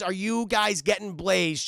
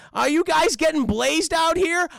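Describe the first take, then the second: First: Said in the usual way. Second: Higher, louder goofy cartoon slacker; Shaggy. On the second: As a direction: impersonate the stoner sidekick. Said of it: "He's like".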